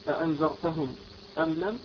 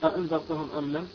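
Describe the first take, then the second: First: A brief pause separates the two words. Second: The two words run together without a pause. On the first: "أن يسكت" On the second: "بدون سكت"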